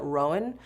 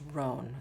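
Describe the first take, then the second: First: The name is said with two syllables. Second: The name is said with one syllable. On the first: The speaker calls it wrong. "I was calling it Rowan" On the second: The speaker calls it right. "no, it's just Roan"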